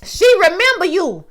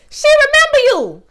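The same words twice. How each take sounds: First: Excited realization. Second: High squealing realization. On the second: Realizing on screen the mother remembers her, squealing. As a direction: repeat it much higher and louder. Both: Retold or imitated. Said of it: "I said".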